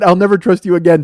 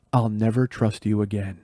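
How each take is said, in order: First: Said in the usual way. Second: Cold quiet threat. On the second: Retold or imitated. Mom staring her son down, quiet and cold. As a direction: let it drop with cold disappointment.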